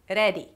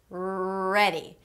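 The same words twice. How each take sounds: First: The R is a short tapped Spanish R. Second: The R is a held American R, tongue untouched. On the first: The speaker calls it wrong. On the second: The speaker calls it right.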